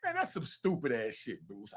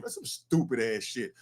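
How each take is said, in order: First: Low, softer blunt dismissal; a hushed but blunt put-down; muttered verdict. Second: Flat, dismissive repeat; a dismissive put-down, slightly softer; blunt street verdict. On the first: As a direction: mutter it under your breath. Scolding the lawyer Bruce. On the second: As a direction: drop it as a final judgment. Repeating verdict to the lawyer Bruce. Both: Real, not acted.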